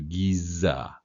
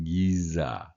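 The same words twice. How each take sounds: No difference in how they are said.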